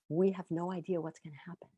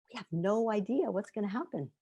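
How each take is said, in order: First: It sounds uncertain and worried. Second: It sounds excited and eager.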